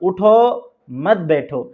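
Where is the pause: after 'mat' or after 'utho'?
after utho. There is a pause right after 'utho'. Stay standing, do not sit. "अगर उठो के ऊपर अगर हम वक्फा करते हैं और रुकते हैं"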